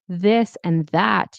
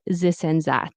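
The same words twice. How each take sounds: First: This starts with a soft th sound. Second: This starts with a buzzing z sound. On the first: The speaker calls it right. "instead of saying this" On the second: The speaker calls it wrong. "you might say this and that"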